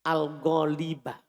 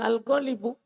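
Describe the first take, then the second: First: The word ends with an 'a' vowel. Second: The word ends with a 'u' vowel. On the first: The speaker calls it right. "Lakinna, temannya inna" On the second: The speaker calls it wrong. "tidak boleh al-ghalibu"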